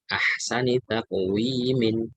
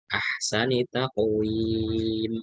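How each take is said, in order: First: The last word ends with an added 'in' sound. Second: The last word ends on 'm' without 'in'. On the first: The reading continues without stopping. "kalau dibaca lengkap" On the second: The reading stops at this word. "kalau disukunkan maka innya hilang"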